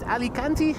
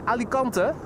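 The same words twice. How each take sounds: First: The name is said with an English pronunciation. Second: The name is said with a Dutch pronunciation. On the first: "Not sure how to pronounce that appropriately in English. Is it Alicante?" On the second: "In Dutch we say Alicante"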